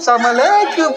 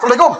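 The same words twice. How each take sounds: First: The greeting is drawn out, warm and friendly. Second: The greeting is short, flat and curt. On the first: The caller is talking to an old school friend. "itu pasti kawan salumninya tuh" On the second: The caller is talking to their spouse at home. "asal menelponnya pendek-pendek, jawabnya itu orang rumah"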